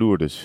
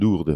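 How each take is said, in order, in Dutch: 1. De naam wordt op de Nederlandse manier uitgesproken. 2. De naam wordt op de Franse manier uitgesproken. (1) "in Nederland zeggen we natuurlijk gewoon Lourdes" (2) "Maar de Fransen zeggen Lourdes"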